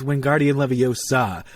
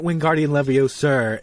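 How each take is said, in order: First: "Wingardium Leviosa" ending cleanly on the vowel of "Leviosa". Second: "Wingardium Leviosa" with an R sound added after "Leviosa"; R at the end. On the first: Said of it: "it's not". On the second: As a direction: say "Leviosa" as if it ended in R, the wrong way. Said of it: "with an R at the end". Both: Retold or imitated.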